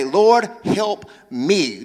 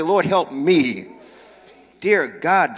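First: Slow pleading prayer; drawn-out plea to the Lord. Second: Slow, sincere plea; prayer. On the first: Preacher modelling the prayer for the congregation, slow and pleading. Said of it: "Do me a favor, point to yourself, say". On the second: Preacher leading congregation in the plea, slow and sincere. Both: Shown as a demonstration.

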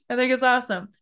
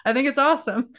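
First: Said in the usual way. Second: Laughing through the words; real laugh bubbling into the praise. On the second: Real, not acted. Host praising guest's accent story, laughing.

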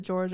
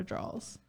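First: "drawers" with the r, like "jorz"; contrasting pronunciations. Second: "draws" without an r before the s; contrasting pronunciations. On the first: Trying to figure out the word, "drawers" as "jorz". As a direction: sound the r in "drawers". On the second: Trying to figure out the word, "draws" as "drawls". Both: Shown as a demonstration. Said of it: "figure out what the word".

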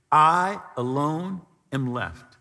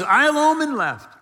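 First: Mild hopeless murmur; lonely lament. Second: Higher, louder despairing outcry; loud anguished protest; despairing cry. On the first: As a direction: let it sink, weary and alone. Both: Retold or imitated. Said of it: "He's, he's lonely".

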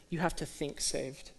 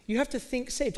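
First: "You have to think saved" said low and soft, almost to himself; quiet first take. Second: "You have to think saved" lifted much higher, pressing "have"; raised emphatic take. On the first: Preacher to congregation, quietly stating the point. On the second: Preacher to congregation, repeating the point higher and emphatic. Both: Shown as a demonstration.

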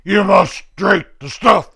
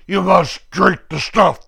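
First: Bullying interrogator, rising. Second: Bullying interrogator. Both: Retold or imitated. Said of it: "the bad guys going".

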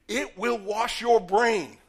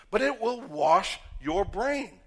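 First: Each word of "It will wash your brain" slowed and punched louder; slow heavy stress. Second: "it will wash your brain" drawn out slowly with firm weight; slow emphatic stress. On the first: Preacher hammering home "It will wash your brain", slow and loud. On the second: Preacher repeating "it will wash your brain", slow and firm. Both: Real, not acted. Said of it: "repeated emphatic line".

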